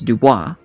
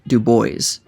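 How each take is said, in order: First: The name is said with a French-style pronunciation. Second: The name is said with an American-style pronunciation. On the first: The speaker calls it wrong. "pronounced with a French flair" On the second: The speaker calls it right. "the very American-sounding Du Bois"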